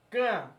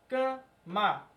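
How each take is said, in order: First: The M and final vowel are dropped, nasalized only. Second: The M and final vowel are clearly pronounced. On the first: The speaker calls it wrong. "Não é assim, ó" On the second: The speaker calls it right. "o M ele é pronunciado C A M A"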